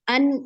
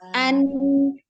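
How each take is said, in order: First: The final n is clipped short. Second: The final n is held and flowing. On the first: The speaker calls it wrong. "jangan an, in, un, gitu, gitu doang" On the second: The speaker calls it right. "Jadi harus dialirkan"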